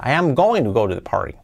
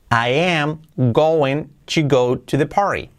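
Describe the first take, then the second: First: Said in the usual way. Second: Slow, careful English line; slow model sentence. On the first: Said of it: "repeat at normal pace". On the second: Shown as a demonstration. Teacher modelling going to example, slow and careful. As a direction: read I am going to go to the party slowly. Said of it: "model sentence read slowly".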